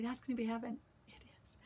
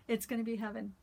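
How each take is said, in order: First: Hushed, breathy whisper of the line; whispered "heaven" aside. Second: Said in the usual way. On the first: Real, not acted. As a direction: let it slip out as a secret whisper. Aside, repeated then said plainly.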